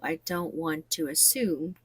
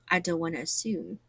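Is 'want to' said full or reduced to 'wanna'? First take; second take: full; reduced. First: 'Want to' is said in full, two clear words. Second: 'Want to' is squeezed into one word, 'wanna'.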